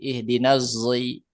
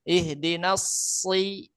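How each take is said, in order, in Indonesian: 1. Kata kedua diawali dengan bunyi z. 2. Kata kedua diawali dengan s yang tebal dan tajam. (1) "bisa dibaca jai, zai" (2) "Kalau sod kan sofir, ihdinas si itu tebal, eh apa eh, tajam"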